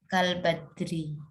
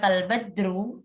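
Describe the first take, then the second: First: The word ends in an i vowel. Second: The word ends in an u vowel. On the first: The speaker calls it right. "Yang benar itu" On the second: The speaker calls it wrong. "ya keliru ya"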